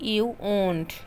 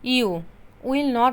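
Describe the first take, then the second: First: Will and not merge into one short word. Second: Will and not are said as separate full words. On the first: The speaker calls it right. "আমরা বলবো you ওন্ট" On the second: The speaker calls it wrong. "You উইল নট আমরা বলবো না"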